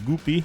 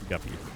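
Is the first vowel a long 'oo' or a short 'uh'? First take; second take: long oo; short uh. First: The first vowel is a long 'oo' sound. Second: The first vowel is a short 'uh' sound. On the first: This is how a Spanish speaker says the name. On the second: This is the usual English name.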